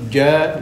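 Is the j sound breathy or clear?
clear. The j is voiced with no escaping air. The speaker calls it right. "Yang betul"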